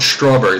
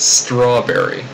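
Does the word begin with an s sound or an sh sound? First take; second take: sh; s. First: The word begins with a blurred sh-like sound. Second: The word begins with a crisp s and t. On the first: The speaker calls it wrong. "It's not strawberry" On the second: The speaker calls it right. "It's strawberry"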